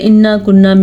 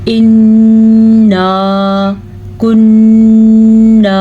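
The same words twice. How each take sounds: First: The nasal sounds and long vowels are cut short. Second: The nasal sounds and long vowels are held longer. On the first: The speaker calls it wrong. "बाज़ लोग पढ़ते हैं ... कितना गलत है" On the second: The speaker calls it right. "अलिफ मद्दे भी हैं और गुन्ने भी हैं"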